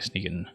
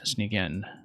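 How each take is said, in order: First: It is said as one word, like sneaking. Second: It is said as two separate words. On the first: The speaker calls it right. "you actually pronounce it Sneakin'" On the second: The speaker calls it wrong. "I've just been reading it Sneak In every time"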